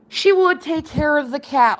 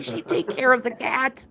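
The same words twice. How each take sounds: First: "would" spelled out in full and pressed, the line a bit louder and higher; insistent emphasis. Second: Said in the usual way. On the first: Real, not acted. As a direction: repeat it firmly, leaning on "She would".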